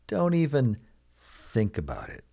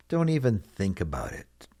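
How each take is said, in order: First: "Don't even" set apart, then "think about it". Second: Said in the usual way. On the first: Shown as a demonstration. Teacher repeats phrase slowly for learners.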